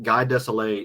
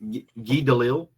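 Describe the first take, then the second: First: The surname is pronounced like 'Desilets'. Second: The surname is pronounced like 'Delisle'. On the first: The speaker calls it wrong. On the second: The speaker calls it right.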